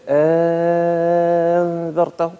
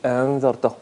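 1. الهمزة الثانية تتحول إلى حرف مد طويل. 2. الهمزة الثانية تُسهَّل ولا تُنطق كاملة. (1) "بالإبدال" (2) "بالتسهيل"

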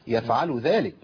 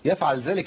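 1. اللام في الفعل عليها ضمة. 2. اللام في الفعل ساكنة من غير حركة. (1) "واللام مضمومة" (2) "في كتير من الناس بيسكن اللام هنا"

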